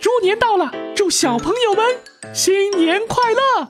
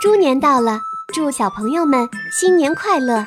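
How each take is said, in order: First: It is said in a Mickey Mouse voice. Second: It is said in the actor's natural voice.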